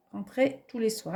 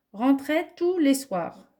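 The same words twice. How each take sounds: First: Said in the usual way. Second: Lifted, slowed "rentrait tous les soirs" read out like a dictation; careful, deliberate dictation of "rentrait tous les soirs". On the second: Shown as a demonstration. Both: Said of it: "on va faire un essai".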